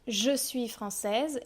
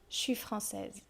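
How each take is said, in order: First: The vowel of je is fully pronounced. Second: The vowel of je is dropped. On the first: "Par exemple" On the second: "moi je vais dire"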